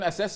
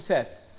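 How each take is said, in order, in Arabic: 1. تبدأ الكلمة بهمزة. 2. تبدأ الكلمة مباشرة بصوت s. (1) "بدل من أساس" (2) "يقول ساس"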